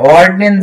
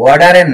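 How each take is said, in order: First: The d and n follow with no vowel between. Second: A vowel is inserted between the d and n. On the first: The speaker calls it right. "অর্ডনেন জিসু" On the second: The speaker calls it wrong. "অর্ডারেন না"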